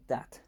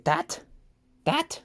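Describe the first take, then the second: First: Said in the usual way. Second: Put-on high squeaky toddler "that" rising up; mock baby voice saying "That"; baby talk. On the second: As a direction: imitate a baby pointing. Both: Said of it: "As my baby would say".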